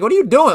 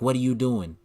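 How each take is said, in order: First: It is said forcefully, with confrontation. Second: It is said timidly, without energy.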